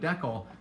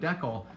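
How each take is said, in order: First: Decal is said the Canadian way. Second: Decal is said the Canadian way.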